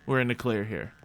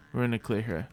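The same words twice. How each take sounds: The two takes are said the same way.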